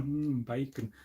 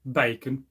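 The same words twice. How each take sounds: First: Soft, dreamy "Mm, bacon", much softer and lower; savouring bacon. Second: Said in the usual way. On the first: Shown as a demonstration. Making viewers hungry, a soft savouring murmur. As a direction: hum it like you can taste it. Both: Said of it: "You've got to say it slowly".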